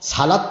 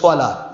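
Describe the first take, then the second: First: It begins with a plain s sound. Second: It begins with an emphatic s sound. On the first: It sounds like the name of a vegetable dish. The speaker calls it wrong. "সালাদ তো কোনো শব্দ আরবিতে নেই" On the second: It is the proper Arabic word for prayer. The speaker calls it right. "আরবিতে আছে সোয়ালাত"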